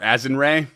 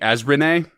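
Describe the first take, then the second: First: The name is pronounced like 'Azinray'. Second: The name is pronounced like 'Azrene'. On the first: The speaker calls it wrong. "I kept saying Master Azinray" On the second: The speaker calls it right. "it's actually Azrene"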